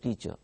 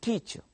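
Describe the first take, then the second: First: The stress is on the second syllable. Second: The stress is on the first syllable. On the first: The speaker calls it wrong. "Don't say teacher" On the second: The speaker calls it right. "we say teacher, That's why stress is there on the first syllable"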